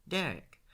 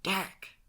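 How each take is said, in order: First: High, loud name-call to cut him off; warning interjection. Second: Sharp, high, loud reprimand by name; hissed warning. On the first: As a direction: warn a friend by name, raised voice. Friend cutting off Derek's rant. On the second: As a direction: cut him off urgently, pitch jumping up. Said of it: "Sean hissed". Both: A narrator's reading.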